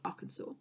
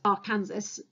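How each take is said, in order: First: The word is pronounced differently from its spelling. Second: The word is pronounced just as it is spelled. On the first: The speaker calls it right. "but it's Arkansas" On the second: The speaker calls it wrong. "looks like you'd pronounce it as Arkansas"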